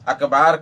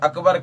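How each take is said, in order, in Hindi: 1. दूसरा स्वर लंबा खींचा हुआ है। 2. दूसरा स्वर छोटा है। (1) "अकबार कह देते हैं, जो दुरुस्त नहीं है" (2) "अकबर की जगह पे"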